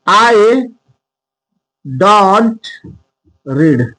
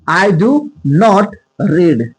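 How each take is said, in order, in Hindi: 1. 'do not' को 'don't' में संक्षिप्त किया जाता है। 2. 'do not' शब्द पूरे बोले जाते हैं। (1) "लेकिन इसको हम ऐसे भी लिख सकते हैं" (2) "आई डू नॉट"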